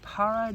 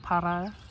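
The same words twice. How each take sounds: First: The R is not rolled. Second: The R is rolled. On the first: The speaker calls it wrong. "I know I was supposed to roll that R" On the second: The speaker calls it right. "there we go"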